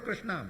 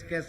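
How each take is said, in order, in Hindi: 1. नाम पूरा बोला जाता है, उसके संयुक्ताक्षर के साथ। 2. नाम को छोटा करके 'kais' जैसी आवाज़ में बोला जाता है। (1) "ठीक से तो बोलो" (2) "कृष्ण शब्द का उच्चारण कैस कैस"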